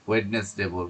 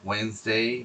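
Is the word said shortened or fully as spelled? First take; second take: as spelled; shortened. First: The word is said fully, letter by letter. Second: The word is said shortened, skipping letters. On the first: The speaker calls it wrong. "ওয়েডনেসডে বলাটা ঠিক হবে না" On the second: The speaker calls it right. "উচ্চারণটা এটা ওয়েন্সডেই পড়তে হবে"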